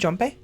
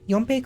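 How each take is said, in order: First: The name begins with a J sound. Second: The name begins with a Y sound. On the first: "It could be Jompe?" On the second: "the way a Norse would, with a Y instead of a J"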